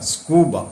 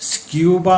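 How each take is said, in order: First: No 'y' sound follows the 'k'. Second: A 'y' sound follows the 'k'. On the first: The speaker calls it right. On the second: The speaker calls it wrong. "സ്ക്യൂബ എന്നല്ല"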